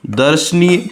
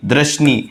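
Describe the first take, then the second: First: दर्शनीय as "dar-sh-neey", r after the vowel; correct r placement. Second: दर्शनीय as "drash-nee", r jumped next to d; wrong r placement. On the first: Teacher giving students the right form, दर्शनीय as "dar-shneey". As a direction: say दर्शनीय opening with a full "dar". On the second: Teacher showing students the mistake, दर्शनीय as "drash-nee". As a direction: say दर्शनीय starting with the cluster "dra". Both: Shown as a demonstration. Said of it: "गलत है".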